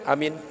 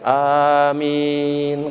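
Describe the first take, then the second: First: Both vowels are said short. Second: Both vowels are drawn out long. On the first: Safe. "Kalau dipendekkan" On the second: May it be granted. "Kalau A-nya panjang, min-nya panjang"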